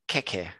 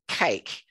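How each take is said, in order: First: The word is said the Canary Islands way. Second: The word is said the standard English way. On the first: "They pronounce it keke" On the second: "they don't pronounce it cake"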